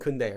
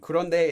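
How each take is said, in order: First: The word is squeezed into two syllables. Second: All three syllables of the word are said. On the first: It suits everyday speech. "if you're speaking, use 근데" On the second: It suits writing. "If you're writing, I would say 그런데 is better"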